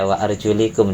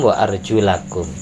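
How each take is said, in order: First: The vowel after 'arjul' is an 'i' sound. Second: The vowel after 'arjul' is an 'a' sound. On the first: The feet are wiped, not washed. The speaker calls it wrong. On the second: The feet are washed, not wiped. The speaker calls it right.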